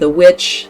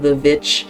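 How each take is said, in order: First: The word witch begins with a W sound. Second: The word witch begins with a V sound.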